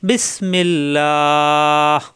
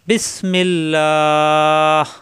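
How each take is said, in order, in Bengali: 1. শেষের 'lah' লম্বা, h দিয়ে শেষ হয়। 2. শেষের 'lah' লম্বা, h দিয়ে শেষ হয়।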